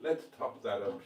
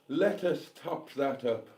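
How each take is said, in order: First: Said in the usual way. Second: "Let us top that up" spaced out word by word; mock-formal. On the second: Mock-formal restatement of the phrase.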